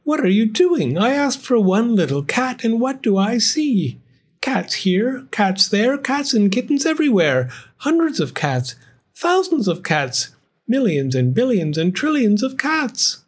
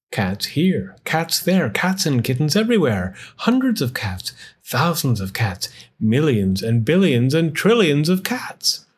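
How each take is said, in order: First: Put-on much higher, fretful old wife; dismayed old woman. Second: Rhythmic read-aloud refrain; story narration. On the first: Old wife scolds husband over all the cats, high dismay. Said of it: "she cried". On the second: Narrator counts the cats for children, rhythmic refrain. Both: A narrator's reading.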